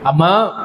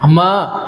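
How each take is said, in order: First: Tender call. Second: Tender call shown. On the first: Retold or imitated. Jesus calling the woman brought before him, tenderly. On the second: Shown as a demonstration. Preacher demonstrating Jesus' loving call, tenderly. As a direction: show the congregation how lovingly he said అమ్మా. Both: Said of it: "ఆ పిలుపులో చూడండి".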